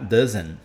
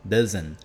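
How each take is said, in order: The two takes are said the same way.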